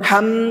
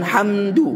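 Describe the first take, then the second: First: The final d is swallowed and not heard. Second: A vowel u is added after the d. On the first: "Dan dalnya ditelan, dimakan" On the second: "bukan hamdu"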